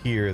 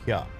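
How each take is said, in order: First: The word ends with a clear r sound. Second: The word ends in an open vowel without r. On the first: "they don't say "here,"" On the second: "they say "hya.""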